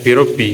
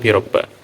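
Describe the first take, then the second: First: The word ends with an 'i' vowel. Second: The word ends with an 'a' vowel. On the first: The speaker calls it right. "Jadi dibaca birobbi" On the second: The speaker calls it wrong. "bukan birobba"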